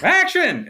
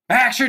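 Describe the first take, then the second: First: It is shouted in an excited, energizing way. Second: It is shouted in an annoyed, scolding way. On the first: The actors are being energized. The speaker calls it right. "more like action. And it was exciting" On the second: The actors are being insulted. The speaker calls it wrong. "Not in a like, action, you dummies"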